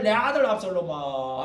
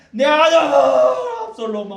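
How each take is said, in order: First: Mock lament. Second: Slow, very high and loud wail of 아들; wailing king. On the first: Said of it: "왕궁에서 맨날". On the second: Retold or imitated. David calling for his dead son, loud slow wailing. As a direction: cry out 아들 like a grieving father. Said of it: "또 부릅니다".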